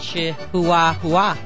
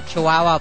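First: It is pronounced literally, as the letters suggest. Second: It is pronounced the usual, familiar way. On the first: The speaker calls it wrong. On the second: The speaker calls it right.

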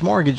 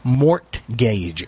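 First: The T sound in the middle is silent. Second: The T sound in the middle is pronounced. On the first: The speaker calls it right. "the T is silent" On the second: The speaker calls it wrong. "that's how you would think you'd pronounce it"

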